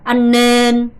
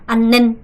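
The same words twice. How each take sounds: First: The vowel in nên is long. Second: The vowel in nên is short. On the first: The speaker calls it right. "애가 지금 장음이에요" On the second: The speaker calls it wrong. "이렇게 발음하시면 안 돼요. 안는 는 아니고요"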